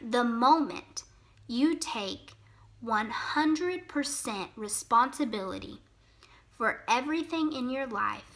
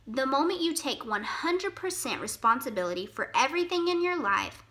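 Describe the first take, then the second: First: It is spoken at a noticeably slower pace. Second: It is spoken at a normal, quicker pace.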